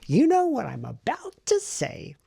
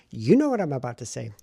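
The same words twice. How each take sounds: First: Higher, louder and slower, a playful sing-song; sing-song tease. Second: Said in the usual way. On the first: Real, not acted. Vlogger teasing viewers about the writing, playful sing-song. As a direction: draw it out like a teasing singsong.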